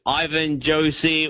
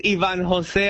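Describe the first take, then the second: First: Ivan Josie said EYE-vən JOH-see; Australian misreading. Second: Ivan Jose said ee-VAHN ho-SEH; Spanish pronunciation. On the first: Retold or imitated. Comedian mimicking an Australian reader, Ivan Josie anglicised. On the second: Shown as a demonstration. Comedian introducing himself, Ivan Jose the Spanish way. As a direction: give Ivan Jose its Spanish vowels and breathy J. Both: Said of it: "every time an Australian reads it".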